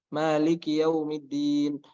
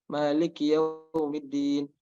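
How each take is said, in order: Both takes have the same delivery.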